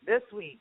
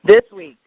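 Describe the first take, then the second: First: Said in the usual way. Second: This week shouted loud to correct her; emphatic correction. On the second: Real, not acted. Co-host loudly correcting the date, This week stressed hard. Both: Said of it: "Last week".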